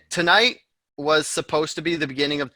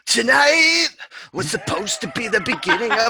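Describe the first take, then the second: First: It is read in the speaker's ordinary voice. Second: It is read in an imitated singer's voice.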